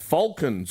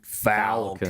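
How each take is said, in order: First: It is said in a non-American accent. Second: It is said in an American accent.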